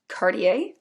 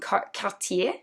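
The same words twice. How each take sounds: First: The name is said the American way. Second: The name is said the French way.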